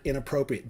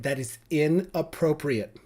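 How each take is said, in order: First: Said in the usual way. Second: 1 mocking prissy scold. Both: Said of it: "They love that word".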